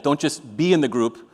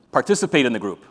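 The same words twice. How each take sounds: First: "in" stretched and leaned on; stress on in. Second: "participate" hit firmly, falling; stress on participate. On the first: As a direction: draw out "in" to show mere presence. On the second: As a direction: punch "participate" as the real point. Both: Shown as a demonstration.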